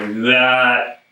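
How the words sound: The word is said in a lazy way. "You should say it lazy, like"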